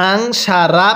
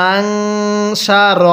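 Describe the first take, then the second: First: আং সা রা, ending on a long রা; wrong reading. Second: আং সা র, nasal আং and a short র; correct reading. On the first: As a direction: wrongly stretch the last syllable to রা. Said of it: "র জবর রা পড়ি পড়াটা সহি শুদ্ধ হবে না". (ভুল উচ্চারণ আং সা রা) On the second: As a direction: say আং with nasal ghunnah, then সা র short. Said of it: "কিভাবে পড়ব". (সঠিক উচ্চারণ আং সা র) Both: Shown as a demonstration.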